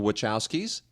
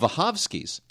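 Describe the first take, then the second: First: The name starts with a W sound. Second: The name starts with a V sound. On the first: This is the common American way of saying it. The speaker calls it wrong. "We call them the Wachowskis" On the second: This is the original Polish way of saying it. The speaker calls it right. "No, the Vahovskis"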